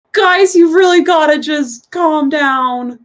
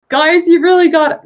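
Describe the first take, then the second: First: High, slow, drawn-out youthful voice; slow high-voiced young bath attendant; young non-binary attendant. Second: Put-on high-pitched, raised boyish voice; youthful high voice, pitched well up; young boy. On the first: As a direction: plead slowly with rowdy guests, pitched up. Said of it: "Young non-binary person. And says". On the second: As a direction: play a young attendant pleading with rowdy guests. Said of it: "a pockmarked young boy".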